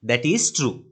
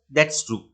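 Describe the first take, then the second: First: 'That is' is said as two full words. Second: 'That is' is shortened into one syllable. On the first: "that is කියලා කැමති නම් වෙනම කියන්නත් පුළුවන්" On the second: "කෙටි කරලා කියන්නත් පුළුවන්"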